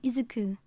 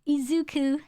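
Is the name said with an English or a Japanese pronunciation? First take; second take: Japanese; English. First: The name is said with a Japanese-style pronunciation. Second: The name is said with an English-style pronunciation. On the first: The speaker calls it right. "the original pronunciation" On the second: The speaker calls it wrong. "the Western pronunciation of Izuku"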